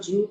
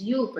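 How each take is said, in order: First: The name begins with a 'j' sound. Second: The name begins with a 'y' sound. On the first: The speaker calls it wrong. "It's not Jupe" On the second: The speaker calls it right. "that's the correct way of pronouncing it"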